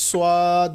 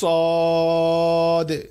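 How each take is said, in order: First: A w-like glide follows the first consonant. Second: No glide follows the first consonant. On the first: The speaker calls it wrong. "অনেকে এই অক্ষরটা উচ্চারণ করে সোয়াদ বলে, কিন্তু সোয়াদ হবে না" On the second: The speaker calls it right. "অক্ষরটা হবে সদ"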